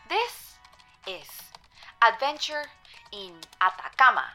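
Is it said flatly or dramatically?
flatly. It is said flatly, without feeling.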